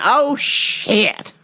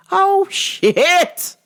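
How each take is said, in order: First: A mild, muttered oh no; a first dawning of panic; dread. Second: Higher, louder rising panic; the dread fully hits. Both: Retold or imitated. Facing the tough opponent.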